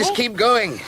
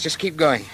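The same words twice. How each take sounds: First: High, loud, insistent push; forceful urging. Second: Firm, higher-pitched encouragement; urging on. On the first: Man driving exhausted companion toward the light, insistent. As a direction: call it out with more force. Urges again, more forcefully. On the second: Man urging tired companion along the shortcut, firm. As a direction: press her onward, moderately raised. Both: Acted.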